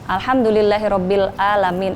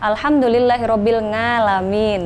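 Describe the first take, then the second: First: The last word starts with a plain glottal stop. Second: The last word starts with an 'ng' sound. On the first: "banyak yang membaca uh, dengan uh, hamzah" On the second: "atau alhamdulillahirabbil ngalamin"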